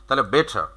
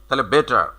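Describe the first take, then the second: Both takes have the same delivery.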